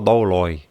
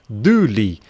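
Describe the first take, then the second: First: The word is read letter by letter, ending 'loy'. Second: The word is said 'doo-lee', ending 'lee'. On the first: The speaker calls it wrong. "ninguém pronuncia essa palavra douloi" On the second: The speaker calls it right. "A pronúncia mesmo no grego é duli"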